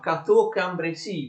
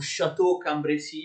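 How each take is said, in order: First: The name begins with a hard k sound. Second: The name begins without a hard k sound. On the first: The speaker calls it right. "si pronuncia Cateau-Cambrésis, vedete C A" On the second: The speaker calls it wrong. "Non si pronuncia come alcuni fanno"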